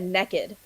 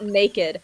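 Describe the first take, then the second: First: The word is said with a Southern accent. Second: The word is said with a standard accent.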